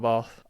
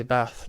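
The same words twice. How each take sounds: First: BATH with a long "ah" as in father; long-vowel bath. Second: BATH with a short flat "a" as in cat; short-vowel bath. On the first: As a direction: draw the vowel of BATH out to "bahth". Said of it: "I say bath, not bath". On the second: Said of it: "How do you say bath". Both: Shown as a demonstration.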